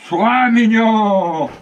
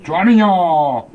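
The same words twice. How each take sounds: First: Slow, higher, pleading coax; coaxing dog. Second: Slow, drawn-out coaxing; coaxing dog. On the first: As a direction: stretch it out to calm him. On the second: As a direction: coax the dog, slowly. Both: Real, not acted. Soothing the dog.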